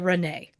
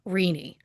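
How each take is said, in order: First: The name ends with an 'ay' sound. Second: The name ends with an 'ee' sound. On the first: The speaker calls it wrong. "it is my instinct to say Renee" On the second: The speaker calls it right. "in this case, it's pronounced Rini"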